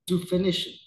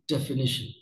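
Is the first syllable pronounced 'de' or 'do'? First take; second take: do; de. First: The first syllable is said as 'do'. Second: The first syllable is said as 'de'. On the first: The speaker calls it wrong. "Let me make it slightly wrong" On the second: The speaker calls it right. "So let me say the right way now"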